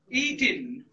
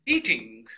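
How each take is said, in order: First: The word ends in an N sound without G. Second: The word ends with a full NG sound. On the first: This is the American way of saying it. "they usually silence this G" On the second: This is the British way of saying it. "Britishers, they'll give it the pull sound"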